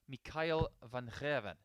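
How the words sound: The name is said with a Dutch pronunciation. "if you say it properly"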